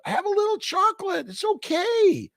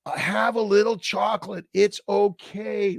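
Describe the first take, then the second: First: Playful falsetto. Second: Said in the usual way. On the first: Pretend. To a viewer craving chocolate, in a teasing falsetto. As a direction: coax them in a silly high voice.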